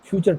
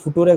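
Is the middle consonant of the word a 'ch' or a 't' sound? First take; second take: ch; t. First: It is said 'fyoo-cher' with a 'ch' sound. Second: It is read letter by letter with a 't' sound. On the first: The speaker calls it right. "ఫ్యూచర్ tense అది" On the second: The speaker calls it wrong. "అది ఫుటూరే కాదండి"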